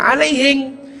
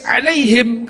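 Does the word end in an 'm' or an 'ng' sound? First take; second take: ng; m. First: It is said in a Bugis accent, ending in ng. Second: It is said in standard Arabic, ending in m.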